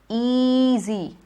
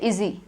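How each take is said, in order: First: The first vowel is a long E. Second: The first vowel is a short E. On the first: The speaker calls it right. "It is easy" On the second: The speaker calls it wrong. "easy would get a short E"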